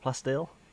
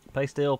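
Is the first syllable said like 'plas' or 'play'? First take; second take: plas; play. First: The first syllable is said like 'plas'. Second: The first syllable is said like 'play'. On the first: "you can call it plasteel if you really, really want to" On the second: "I'm going to call it playsteel"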